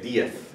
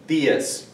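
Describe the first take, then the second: First: It is said with a Spain accent on the Z. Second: It is said in the speaker's usual non-Spain accent. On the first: "Or in Spain, if there's a Z at the end, they'll say diez" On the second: "I'm not from Spain, that's not my accent"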